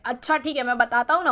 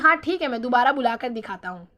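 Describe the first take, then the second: First: It is said angrily and overconfidently. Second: It is said calmly and patiently.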